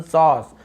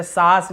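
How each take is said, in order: First: सॉस slow with a long "aw"; rounded "aw". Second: सास with open unrounded "aa"; plain "aa". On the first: Teacher correcting, slow "aw" in सॉस. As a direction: round and stretch the vowel in सॉस. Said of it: "आ बोल रहे". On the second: Teacher showing what not to say, सास with "aa". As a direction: say सास quickly with a flat-lipped "aa". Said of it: "ऐसे सास नहीं बोल रहे". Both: Shown as a demonstration.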